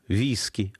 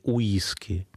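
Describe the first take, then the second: First: The word begins with a V sound. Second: The word begins with a W-like sound. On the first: The speaker calls it right. "переводили это все W, как В" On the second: The speaker calls it wrong. "а не уиски"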